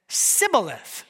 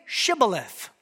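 First: SIBBOLETH with a plain s instead of sh; mispronounced. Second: SHIBBOLETH with a clear sh at the start; correct pronunciation. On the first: Fugitive failing the guards' test, Sibboleth with an s. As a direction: say Sibboleth, hissing S where SH belongs. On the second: Guard testing a fugitive's speech, Shibboleth with an sh. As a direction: say Shibboleth carefully with an SH sound. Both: A narrator's reading. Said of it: "could not pronounce it right".

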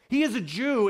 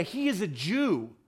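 First: Higher and louder, pressing the point; emphatic repeat. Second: Said in the usual way. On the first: Real, not acted. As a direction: hammer it home the second time.

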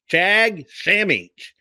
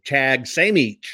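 First: "Chag Samich" slow and higher, stressing "Chag"; Hebrew greeting, repeated. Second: "Chag Samich" said slowly, each syllable laid out; Hebrew greeting. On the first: Host repeating the greeting for viewers, slower and higher. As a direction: lift and lean on "Chag" in "Chag Samich". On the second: Host teaching viewers a Hebrew holiday greeting, slow and careful. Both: Shown as a demonstration. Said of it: "that's how you'll say that".

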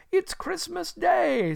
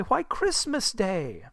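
First: Very high, slow exclamation; overjoyed realisation. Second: Slow, higher, incredulous answer; astonished boy. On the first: Scrooge to himself on learning the day, high overjoyed exclamation. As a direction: marvel to yourself in delight. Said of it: "said Scrooge to himself". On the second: Boy answering Scrooge from below, slow wondering reply. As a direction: state the obvious with boyish wonder. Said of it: "replied the boy". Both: Acted.

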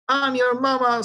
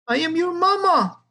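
First: Lightly raised hen squawk on I'm your mama; a milder squawk, mama sung out evenly; a hint of the hen voice, only a little higher. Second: High squawk of a hen, falling on mama; pitched well up, hen squawking I am your mama. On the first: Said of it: "squawked the intelligentsia". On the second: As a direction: squawk it like a frantic mother hen. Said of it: "the hen squawked". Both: A narrator's reading.

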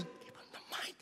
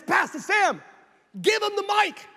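First: Hushed, voiceless order; urgent whisper. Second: High, raised-voice command; urgent calling out. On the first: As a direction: whisper it so only the preacher hears. Jerry repeats it covertly during preaching. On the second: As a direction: call across a stage to get someone's attention. Jerry calls to preacher over crowd. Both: Retold or imitated.

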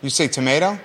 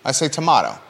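First: "tomato" said "to-may-to". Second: "tomato" said "to-mah-to". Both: Shown as a demonstration.

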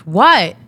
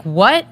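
First: Loud, falling one-word retort; curt pick-up "What?". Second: Rising, disbelieving "what"; shocked. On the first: Sister finally picking up the phone, curt and loud. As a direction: imitate a sister answering with an impatient shout. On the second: Woman hearing terrible news from her sister, shocked. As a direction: retell a stunned question, pitched up at the end. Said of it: "I'm shocked and I'm like". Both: Retold or imitated.

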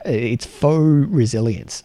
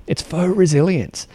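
First: "faux" drawn out slowly, like "fore"; Australian faux. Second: "faux" said quickly, with the stress falling on "resilience"; faux repeated. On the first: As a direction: stretch "faux" in a broad Australian way. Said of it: "in case my Australian accent is not clear there". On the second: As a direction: repeat "faux" clearly, at normal speed. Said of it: "So F O U X". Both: Shown as a demonstration.

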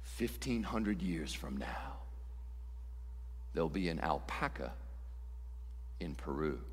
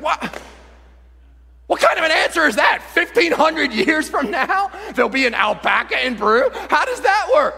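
First: Deadpan solemn oracle, barely above a murmur; God answering. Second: High, loud disbelief; comic indignant yelling; incredulous outburst. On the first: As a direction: deliver it softly with grave pauses. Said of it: "Okay, I'll answer". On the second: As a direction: explode in baffled protest at the answer. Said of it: "You're like". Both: Acted.

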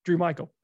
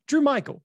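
First: Said in the usual way. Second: A mock-outraged echo of the name; incredulous Norm. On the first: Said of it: "he looks at the interviewer". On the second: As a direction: repeat the name higher and louder in disbelief. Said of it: "What's his name?".

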